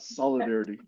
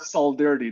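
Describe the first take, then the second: First: The word is said with all its sounds. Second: One vowel sound is left out of the word. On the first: It is the normal form of the word. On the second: It mimics a misspelling of the word. "The I is missing. So that's why I call it"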